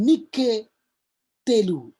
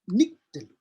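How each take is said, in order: First: A vowel sound is heard after the k. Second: No vowel sound is heard after the k. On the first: The speaker calls it wrong. "bukan Nike telu" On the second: The speaker calls it right. "Sewa pertama ini tidak berbunyi, dia sewa diam"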